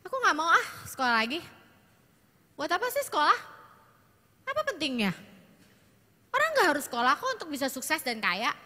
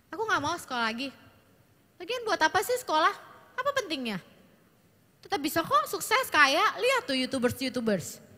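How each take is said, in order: First: Put-on whiny, complaining teen, a little higher; sulky teenage daughter. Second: Put-on fast, whiny, higher complaining teen; sulky teenage daughter. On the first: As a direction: act out a daughter refusing school. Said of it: "dengan intonasi begitu". (anak remaja merengek malas sekolah) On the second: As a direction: rattle off a defiant refusal of school. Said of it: "dengan intonasi segitu waktu ngomong sama orang tuanya". (anak perempuan membantah orang tua dengan nada tinggi) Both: Shown as a demonstration.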